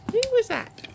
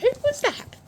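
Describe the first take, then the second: First: Calling down from tower. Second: Loud high call from above; calling down from tower. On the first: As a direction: call it out again from above. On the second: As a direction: call out across the yard. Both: Real, not acted. Repeated call.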